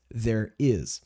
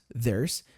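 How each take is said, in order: First: The two words are said as separate syllables. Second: The two words are merged into one syllable. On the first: "a contração do is, there is" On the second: "Normalmente a gente fala there's"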